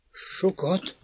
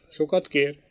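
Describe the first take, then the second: First: A faltering, much softer "Sokat?" rising; stammering, pale. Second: Said in the usual way. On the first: A narrator's reading. Girl echoing her brother's word, stammering and going pale. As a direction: stammer "Sokat?" as the blood drains away. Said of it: "dadogta elhalványodva".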